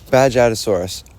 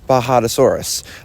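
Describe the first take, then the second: First: The first part sounds like badge. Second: The first part sounds like baha. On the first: The speaker calls it wrong. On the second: The speaker calls it right.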